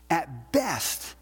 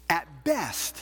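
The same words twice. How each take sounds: The two takes are said the same way.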